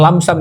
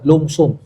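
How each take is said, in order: First: The word is said with 'a' vowels. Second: The word is said with 'u' vowels. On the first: This is the older reading from the old spelling. The speaker calls it wrong. "Jangan bilang lamsam ya" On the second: This is the current reading of the new spelling. The speaker calls it right. "udah berubah, lumsum"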